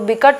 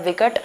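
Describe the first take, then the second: First: The word begins with a b sound. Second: The word begins with a v sound. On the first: The speaker calls it wrong. "बिकट नहीं होता है भाई" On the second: The speaker calls it right. "उसको हम कहते हैं विकट"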